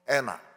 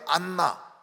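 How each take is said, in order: First: American pronunciation, with an open ae vowel. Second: Korean pronunciation, with a held n sound. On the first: "그런 발음을 못해요" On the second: "우리는 안나"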